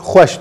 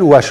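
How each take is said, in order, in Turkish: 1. Kelime gırtlaktan gelen bir h sesiyle başlar. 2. Kelime hiçbir h sesi olmadan başlar. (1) "biz Kurmancı huaş diyoruz" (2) "Zazaca bu h düşer"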